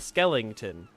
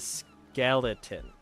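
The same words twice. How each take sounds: First: The word has an extra 'ling' sound. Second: The word is said without an extra 'ling'. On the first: The speaker calls it wrong. "It's not a skeleton" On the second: The speaker calls it right. "It's a skeleton"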